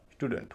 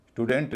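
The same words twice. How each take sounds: First: स्टूडेंट with a light, reduced last syllable; correct English pronunciation. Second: स्टूडेंट with a full "e" in the last syllable; spelling-based pronunciation. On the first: Teacher showing learners the real pronunciation, स्टूडेंट with light ending. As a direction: stress the first syllable of स्टूडेंट, softer ending. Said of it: "स्टूडेंट हो रहा है". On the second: Teacher showing how it is not said, स्टूडेंट spelt-out vowel. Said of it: "का उच्चारण स्टूडेंट नहीं हो रहा". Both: Shown as a demonstration.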